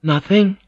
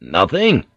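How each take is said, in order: First: High-pitched lady answering a tease; Mariko's reply. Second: Teasing question with a swooping pitch. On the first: Acted. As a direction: lift it high, in a woman's register. Mariko answers his teasing. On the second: A narrator's reading. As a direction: swing the word up and down, teasingly. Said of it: "he teased".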